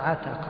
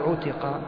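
First: The word starts with an 'a' vowel. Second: The word starts with a 'u' vowel. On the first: The verb is used in the active. The speaker calls it right. "وإنما عتق" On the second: The verb is used in the passive. The speaker calls it wrong. "لا تقل عتق"

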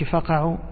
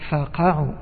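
First: The fa runs smoothly into the verb. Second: The verb is stressed and set apart from fa. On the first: It sounds like the verb for gouging out an eye. The speaker calls it wrong. "ما تقولش فقعوا، لو قلت فقعوا فقعوا يعني تصبح فقع عينه" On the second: It means fall down, from the verb to fall. The speaker calls it right. "وإنما فقعوا، هذا الذي يسمى النبر"

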